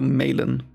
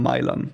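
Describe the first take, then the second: First: The name is given an English pronunciation. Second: The name is given a German pronunciation.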